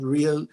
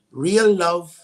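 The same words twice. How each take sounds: First: Said in the usual way. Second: Real stretched and louder; stress on real. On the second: Shown as a demonstration. Praising [name]'s song, a louder, stretched real. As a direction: lean hard on real, drawing it out.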